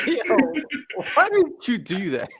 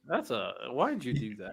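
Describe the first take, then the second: First: High-pitched, amused disbelief; real giggly outcry at a friend; laughing protest. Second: Quietly baffled question; muted dismay. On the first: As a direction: squeal the question through laughter. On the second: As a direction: ask it under your breath. First muted reaction to the matchup. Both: Real, not acted.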